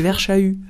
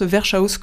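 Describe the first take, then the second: First: The name is pronounced in a French way. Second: The name is pronounced in a German way. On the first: The speaker calls it right. "Mais en fait, non, c'est Verschau" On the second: The speaker calls it wrong. "comme je voulais faire à l'allemande"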